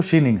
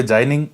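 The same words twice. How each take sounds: First: शीनिंग said "shee-ning"; correct pronunciation. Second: जाइनिंग said "jai-ning"; mistaken pronunciation. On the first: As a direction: start शीनिंग with a "shee" sound, not "jai". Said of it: "इसका सही जो उच्चारण है". (शीनिंग को "शी" से शुरू करके सही बोलें) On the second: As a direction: start जाइनिंग with "jai" instead of "shee". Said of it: "लेकिन ये उच्चारण नहीं है इसका". (जाइनिंग को "जाइ" से शुरू करके गलत उच्चारण) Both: Shown as a demonstration.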